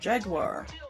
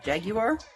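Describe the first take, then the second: First: It is said with a non-British pronunciation. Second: It is said with a British pronunciation.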